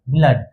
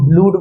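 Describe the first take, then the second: First: The vowel is a short 'uh' sound. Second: The vowel is a long 'oo' sound. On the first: The speaker calls it right. "इसे क्या बोलेंगे? ब्लड" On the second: The speaker calls it wrong. "B L double O D को ब्लूड बोलोगे? नहीं"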